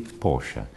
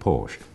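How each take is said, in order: First: The name is said the original company way. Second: The name is said the common American way. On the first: The speaker calls it right. "when it should be" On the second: The speaker calls it wrong. "Most Americans pronounce it"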